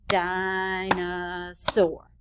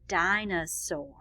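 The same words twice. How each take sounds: First: DINOSAUR very slow, in three beats, DI-NO-SAUR; clapped-out syllables. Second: Said in the usual way. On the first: Shown as a demonstration. Teacher clapping syllables with children, DINOSAUR in three slow, separate beats. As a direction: draw out each syllable of DINOSAUR on a level tone. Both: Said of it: "let's clap out the word dinosaur".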